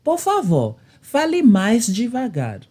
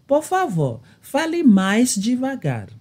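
No difference in how they are said.

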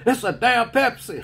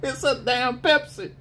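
First: Higher, louder drill sergeant shout; mock yell. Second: Higher drill sergeant shout through laughter; mock yell. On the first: Drill sergeant answering his own quiz, mock shout. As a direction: bark the answer at the private. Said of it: "he said". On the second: Drill sergeant repeating the answer, laughing mock shout.

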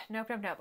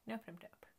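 First: Said in the usual way. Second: Much softer repeated nope; barely voiced refusal; under-the-breath nope nope nope; muttered nope. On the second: Real, not acted.

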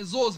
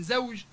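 First: زوز as zoz, z at both ends. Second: Said in the usual way. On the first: Shown as a demonstration. Teacher showing Libyan usage, زوز with z for j. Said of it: "إحالة الجيم إلى". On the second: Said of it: "بدل من زوج".

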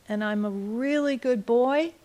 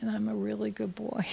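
First: Said in the usual way. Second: Put-on boy echoing his mother in a whisper; whispered repeat. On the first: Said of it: "the mom would say it". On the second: Small boy repeating his mother's words, whispered. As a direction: whisper it back as the little boy. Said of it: "And he'd say".

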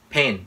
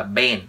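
First: "Pen" with a puff of air on p; correct P in pen. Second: "Pen" mispronounced as "ben"; wrong B for P. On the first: Teacher contrasts for learners, "Pen" with a true p. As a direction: start "Pen" on an aspirated p, not b. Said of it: "chứ không phải là ben". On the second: Teacher shows learners the error, "ben" with a b. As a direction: voice the first sound into a b, "ben". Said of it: "chứ không phải là". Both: Shown as a demonstration.

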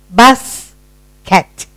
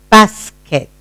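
First: "Basket" drawn into two parts with a long gap; split into syllables. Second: Said in the usual way. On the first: Shown as a demonstration. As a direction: separate both syllables of "Basket". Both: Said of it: "listen to your own sound".

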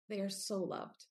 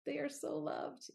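First: Said in the usual way. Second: They are so loved, with "so" pitched high and falling; stress on so. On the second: Real, not acted. Mother urging struggling parents, "so" stressed high. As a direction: lean hard into "so", higher and softer.

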